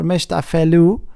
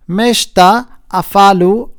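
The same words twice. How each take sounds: First: Afelu with an "eh"-like middle vowel; alternative pronunciation. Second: Afalu with an "ah" in the middle; first pronunciation variant. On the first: Lecturer offering a name's other pronunciation, Afelu with "eh". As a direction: say Afelu as a-FEH-loo. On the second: Lecturer offering a name's first pronunciation, Afalu with "ah". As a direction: say Afalu as a-FAH-loo, slowly. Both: Shown as a demonstration. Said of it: "it depends how you, uh, say it, pronounce it".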